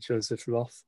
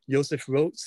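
First: The name is pronounced with English sounds. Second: The name is pronounced with German sounds. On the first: This is an adapted form for English speakers. "we can anglicise this to Joseph Roth" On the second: This is how the man himself said his name. "as he would have said it"

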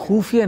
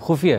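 First: The first syllable has a long u vowel. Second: The first syllable has a short u vowel. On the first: The speaker calls it wrong. "तुम बड़े ऊ की मात्रा लगा रहे हो" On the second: The speaker calls it right. "छोटा छोटा छोटा ऊ है"

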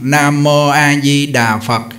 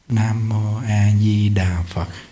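First: The phrase is recited in a loud voice. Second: The phrase is recited in a soft voice. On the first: "lớn tiếng nè" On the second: "Rồi niệm nhỏ"

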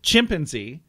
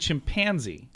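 First: The stress falls on the chimp part. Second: The stress falls on the panzee part. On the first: This is how a child says it. "or as our son says it" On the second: This is how the adults say it. "We stress the pansy, not the chimp"

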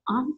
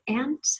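First: The word is said in an Eastern accent. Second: The word is said without an Eastern accent. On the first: This is how the speaker said it back home. "with my Eastern accent. I said aunt" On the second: This is how people said it in the new place. "instead of aunt"

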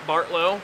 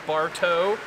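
First: The name has an L sound before the end. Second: The name has no L sound before the end. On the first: The speaker calls it wrong. "My last name is not Bartlow" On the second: The speaker calls it right. "it is Bartow. Like you go to a bar, and then you get towed"

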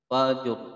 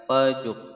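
No difference in how they are said.

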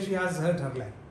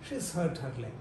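First: The word 'has' is said in full. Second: The word 'has' is contracted to 's. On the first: The speaker calls it wrong. "They don't say she has hurt her leg" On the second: The speaker calls it right. "They say, she's hurt her leg"

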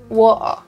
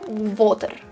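First: Spoken in a London accent with the T dropped. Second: Spoken in a Latvian accent with a hard R. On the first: "the most stereotypical, I guess, London accent" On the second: "Latvian, Russian accent. Water with the hard R"

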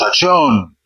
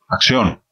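First: The word is shouted loudly. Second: The word is whispered softly. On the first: The director calls for action by yelling. "hay directores que pegan gritos" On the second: The director calls for action quietly. "Diego es el que susurra"

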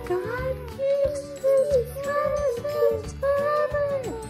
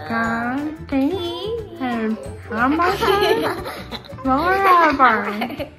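First: It is said in a very high-pitched voice. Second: It is said as if without any teeth.

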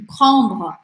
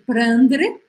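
First: The R is a French R. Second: The R is a Brazilian Portuguese R. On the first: The speaker calls it right. "É bem diferente" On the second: The speaker calls it wrong. "só fazer o R normal do português"

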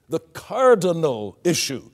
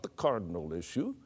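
First: The consonants and vowels are given full weight. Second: The consonants and vowels are swallowed and clipped. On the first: The speaker calls it right. "You give them their full weight" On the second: The speaker calls it wrong. "not the cardinal issue"

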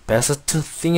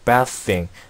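First: The t at the end of best is pronounced. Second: The t at the end of best is dropped. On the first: The speaker calls it wrong. "best thing 이라고 하지 않고" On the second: The speaker calls it right. "이 부분은 발음을 생략하고"

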